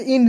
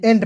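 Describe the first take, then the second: First: "एंड" said with short i, as "ind"; wrong pronunciation. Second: "एंड" with an e vowel, as "end"; correct pronunciation. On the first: Teacher showing students the misreading of E-N-D, "एंड" as "ind". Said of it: "के एंड नहीं पढ़ते, एंड पढ़ते हैं". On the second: Teacher correcting students' reading of E-N-D, "एंड" with e. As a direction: open "एंड" with e, never "ind". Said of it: "एंड पढ़ते हैं". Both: Shown as a demonstration.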